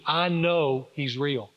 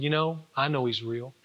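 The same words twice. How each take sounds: First: Slow, deliberate "I know he's real"; slow conviction. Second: Said in the usual way. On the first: Retold or imitated. Father answering his son's doubt, slow conviction. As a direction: weigh out each word with certainty.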